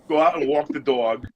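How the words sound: It is said in a New York accent. "you go from that New York"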